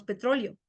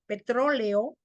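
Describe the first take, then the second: First: "petróleo" ending as -lio; hiatus made diphthong. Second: Said in the usual way. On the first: Shown as a demonstration. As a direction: close the e to i in "petróleo". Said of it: "decimos petróleo". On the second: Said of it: "Reducción de hiato a diptongo".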